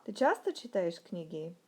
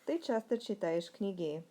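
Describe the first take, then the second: First: Sharp pitch peak on "часто", then dropping; question intonation. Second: "Ты часто читаешь книги" starting on "Ты" and stepping down; statement intonation. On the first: Teacher shows learners the Russian question, pitch jump on "часто". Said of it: "what about the question". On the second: Teacher shows learners the Russian statement, falling intonation. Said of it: "let's look at the statement". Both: Shown as a demonstration.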